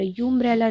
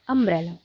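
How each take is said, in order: First: The word begins with a 'yoo' sound. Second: The word begins with a plain 'uh' vowel. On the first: The speaker calls it wrong. "यू अम्ब्रेला नहीं" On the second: The speaker calls it right. "यहाँ अ pronounce हो रहा है"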